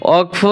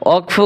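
No difference in how they are said.

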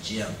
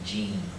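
First: The vowel is a short 'i' sound. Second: The vowel is a long 'ee' sound. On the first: The speaker calls it right. "But it's Jim, like in the man's name" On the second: The speaker calls it wrong. "they're saying Jean, J-E-E-M"

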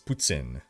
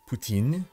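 First: It is said with a Quebec French pronunciation. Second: It is said with a France French pronunciation. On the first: "but in Quebec, it's poutine" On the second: "in France, it is poutine"

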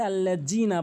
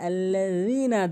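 First: The middle consonant is made behind the teeth. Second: The middle consonant is made between the teeth. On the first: The speaker calls it wrong. "অনেকে ভুল করে আল্লাযীনা বলে" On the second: The speaker calls it right. "বলতে হবে আল্লাযীনা, জিব্বার আগে দাঁতের আগে"

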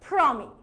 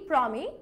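First: It is said with an English, aspirated p. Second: It is said with a plain Bengali p.

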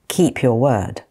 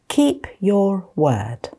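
First: The phrase is spoken at normal speed. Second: The phrase is spoken slowly. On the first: "Then I'll say them at normal speed" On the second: "I'm going to say them slowly first"

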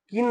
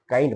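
First: The vowel is a short 'ee' sound. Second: The vowel is an 'eye' sound. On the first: The speaker calls it wrong. "काइंडला किन नाही म्हणायचं" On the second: The speaker calls it right. "काइंड म्हणत"

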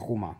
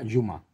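First: The word begins with a harsh throaty 'h' sound. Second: The word begins with a soft 'y' sound. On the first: The speaker calls it wrong. "yo como veía escrito Juma, pues Juma" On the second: The speaker calls it right. "No, se pronuncia Yuma"

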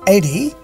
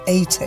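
First: It is said in an American accent. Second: It is said in a British accent. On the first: "The Americans say 80" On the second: "the British say 80"

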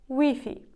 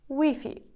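The two takes are said the same way.

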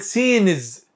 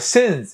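First: The vowel is long. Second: The vowel is short. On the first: The speaker calls it wrong. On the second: The speaker calls it right.

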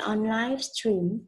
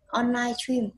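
First: It is said slowly with each word clear. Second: It is said quickly with the words run together. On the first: "Chúng ta đọc đúng là" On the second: "người ta hay nói nhanh ấy"

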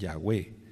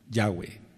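First: The stress is on the last syllable. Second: The stress is on the first syllable. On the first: The speaker calls it wrong. "ellos siguen mencionando la acentuación en la última sílaba" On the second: The speaker calls it right. "lo correcto pues es en la acentuación en Ya"

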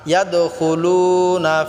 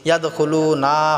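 First: The final syllable na is kept short. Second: The final syllable na is drawn out long. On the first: The speaker calls it right. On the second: The speaker calls it wrong.

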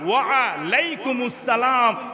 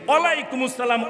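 First: Wa and alaikum are said as separate words. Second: Wa and alaikum are merged into one word. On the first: The speaker calls it right. "ওয়া আ, ওয়া আলাইকুমুস সালাম" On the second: The speaker calls it wrong. "ওয়ালাই মালাই এটা ইসলামে চলে না"

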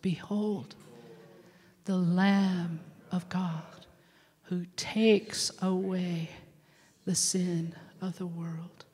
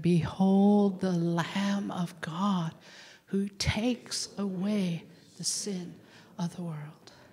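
First: It is said very slowly. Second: It is said at a normal speed.

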